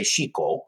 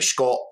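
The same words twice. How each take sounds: First: The i vowel after sh is fully pronounced. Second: The i vowel after sh is cut short.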